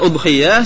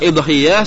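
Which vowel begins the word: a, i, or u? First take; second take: u; i. First: The word begins with an u vowel. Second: The word begins with an i vowel. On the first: "Di domah napane? Hamzah" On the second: "Saged di kasroh hamzah"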